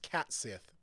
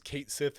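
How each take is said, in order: First: The first word sounds like 'cat'. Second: The first word rhymes with 'gate'. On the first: "supposed to be pronounced Cat Sith because it's a cat" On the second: "I thought it was Kate Sith"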